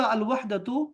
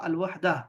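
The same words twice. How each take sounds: First: الوحدۃ said with the final t sound, as in reading; الوحدۃ ending in a clear t; full form. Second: الوحدہ as in everyday talk; الوحدہ with the t dropped; spoken form. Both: Shown as a demonstration. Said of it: "کبھی میں کہوں گا الوحدۃ اور کبھی کہوں گا الوحدہ".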